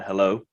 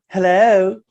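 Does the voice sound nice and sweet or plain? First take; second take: plain; nice. First: It is said in a plain, ordinary voice. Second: It is said in a sweet, nicer phone voice.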